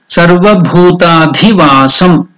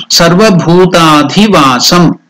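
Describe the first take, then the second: Both takes have the same delivery.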